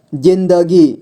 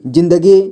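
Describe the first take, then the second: First: जिंदगी drawn out as जिं-द-गी; syllable by syllable. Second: Said in the usual way. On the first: Shown as a demonstration. Teacher showing beginners how to read जिंदगी, syllable by syllable. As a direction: sound out जिंदगी in three steps. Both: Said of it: "जोड़ जोड़ करके ही पढ़ना होगा".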